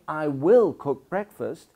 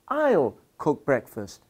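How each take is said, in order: First: Will is said as a full separate word. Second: Will is shortened and joined to I. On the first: "instead of saying" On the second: "I can say"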